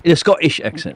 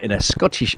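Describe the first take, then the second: First: Higher, mock Scottish lilt; Scottish accent. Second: Said in the usual way. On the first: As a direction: playfully put on Scottish. Mimics Scottish while naming it.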